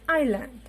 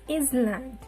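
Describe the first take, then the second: First: The S sound is left silent. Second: The S sound is pronounced. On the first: The speaker calls it right. "The silent letter is S here... So it is completely island" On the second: The speaker calls it wrong. "it is not island"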